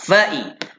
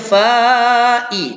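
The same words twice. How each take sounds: First: The first vowel is kept short. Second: The first vowel is drawn out long. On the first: The speaker calls it right. "Jadi kita baca cepat" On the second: The speaker calls it wrong. "Kita tak baca fa'i. Tak ada. Fa tak boleh baca panjang"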